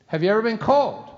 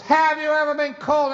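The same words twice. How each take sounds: First: Loaded question. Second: Much higher and louder insistent question; pressing repeat. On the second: Dad repeating his question to his son, higher and louder. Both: Retold or imitated.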